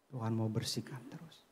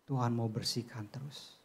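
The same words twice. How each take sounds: The two takes are said the same way.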